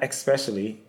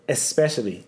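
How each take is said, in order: First: The word starts with an ex sound. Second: The word starts with an es sound. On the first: The speaker calls it wrong. "not especially" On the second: The speaker calls it right. "it's especially"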